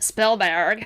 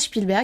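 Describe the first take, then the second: First: The name is pronounced the American way. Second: The name is pronounced the German way. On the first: "à l'américaine" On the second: "je prononce Spielberg parce que j'ai fait L V deux allemand"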